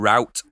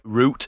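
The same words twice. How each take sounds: First: It is pronounced the American way, rhyming with out. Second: It is pronounced the British way, rhyming with boot. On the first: The speaker is American. The speaker calls it right. "you mean route? You're an American" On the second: The speaker is really from London. The speaker calls it wrong. "he said route instead of route"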